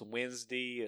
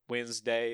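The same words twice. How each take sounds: First: It is said in a Southern country accent. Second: It is said in a standard accent. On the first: "So we're a little country fried here" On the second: "it's not Wednesday"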